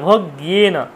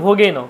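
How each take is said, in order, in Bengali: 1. মাঝখানে g-এর পরে y আছে। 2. মাঝখানে সাধারণ g, y নেই। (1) "গয়ের সাথে ইয়াফলা যুক্ত আছে" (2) "অনেকে বলে ভোগেন"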